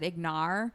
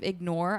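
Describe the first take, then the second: First: The second syllable sounds like 'ar'. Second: The second syllable sounds like 'or'. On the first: The speaker calls it wrong. "I said ignar" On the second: The speaker calls it right. "instead of ignore"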